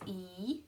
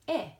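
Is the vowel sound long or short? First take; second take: long; short. First: The vowel sound is long. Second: The vowel sound is short.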